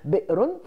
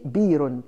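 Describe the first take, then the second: First: A glottal stop is heard in the middle. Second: No glottal stop is heard in the middle. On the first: "On ne dit pas, par exemple" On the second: "on ne prononçait pas le Alif. ... on disait"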